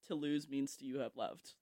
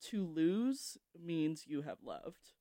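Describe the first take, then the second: First: It is said at normal speed. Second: It is said slowly.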